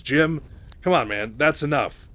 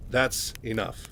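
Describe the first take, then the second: First: Loud, raised-voice rebuke; Mike, stepping in. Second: Level, measured, firm; Mike, very serious. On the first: Mike tells Raynor to ease off Kerrigan, loudly exasperated. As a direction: tell a friend to back off, firmly. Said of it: "knows how much pressure Kerrigan is under". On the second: Mike reiterates his warning to Raynor, serious and controlled. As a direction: repeat it soberly without raising the voice. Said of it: "Mike is very serious right now". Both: Retold or imitated.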